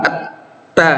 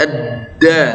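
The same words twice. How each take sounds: First: At-ta with the tongue forward, a voiceless T; forward T sound. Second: Ad-da with a thin, voiced D. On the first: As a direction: turn the D into T in At-ta. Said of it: "Kalau agak ke depan jadi ta". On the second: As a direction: keep the D light in Ad-da. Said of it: "Tipis, ya". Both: Shown as a demonstration.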